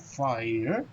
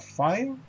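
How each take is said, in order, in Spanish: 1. La palabra se dice en dos sílabas. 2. La palabra se dice en una sílaba. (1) "con dos golpes de voz" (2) "con un solo golpe de voz"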